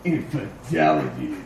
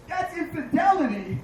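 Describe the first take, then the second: First: Infidelity said very low, like a bank's brand name; deep announcer. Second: Said in the usual way. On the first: Shown as a demonstration. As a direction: drop into a deep commercial voice. Repeating word deep for bank joke. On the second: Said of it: "Oh my God".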